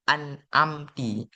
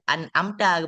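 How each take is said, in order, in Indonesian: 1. Kata ini diakhiri dengan vokal i. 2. Kata ini diakhiri dengan vokal a. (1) "ke kasrahkan ta tersebut" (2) "an amta baca"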